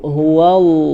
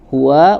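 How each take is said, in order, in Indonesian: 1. Bunyi wa berat dan tebal. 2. Bunyi wa ringan dan tipis. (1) "wa-nya jangan tebal dulu" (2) "wa-nya tipis"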